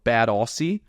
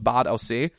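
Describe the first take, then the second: First: The name is pronounced the English way. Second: The name is pronounced the local German way. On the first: "if you pronounce it in English" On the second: "It's called Bad Aussee"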